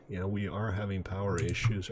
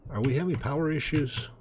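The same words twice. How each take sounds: First: Said in the usual way. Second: Higher-pitched mock-questioning tone; self-posed question, pitched up; rhetorical question. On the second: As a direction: ask it as if you already know the answer. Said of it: "He said rhetorically".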